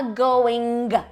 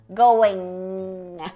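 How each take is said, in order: First: The word ends with an audibly released g. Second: The word ends in a nasal with no g release. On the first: The speaker calls it wrong. "Você não fala going, geralmente" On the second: The speaker calls it right. "é como se você fosse explodir o G, mas não explode"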